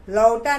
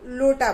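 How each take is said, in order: First: लौटा said with au, the wrong way; teacher says लौटा with au to show the mistake; wrong vowel au. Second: लोटा said with a clear o; teacher says लोटा with o, the right way; right vowel o. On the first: Teacher shows children the wrong sound, लौटा with au. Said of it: "लौटा नहीं बोलते हम". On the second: Teacher shows children the right sound, लोटा with o. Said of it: "लोटा बोलते हैं". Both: Shown as a demonstration.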